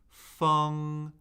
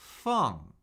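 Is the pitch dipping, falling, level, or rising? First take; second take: level; falling. First: The pitch stays high and level. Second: The pitch falls steadily from high.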